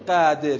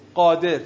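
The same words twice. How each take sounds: First: The first consonant sounds thin, without emphasis. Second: The first consonant sounds heavy, with an emphatic quality. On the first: The speaker calls it wrong. "نمیگیم قادر" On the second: The speaker calls it right. "میگیم قادر"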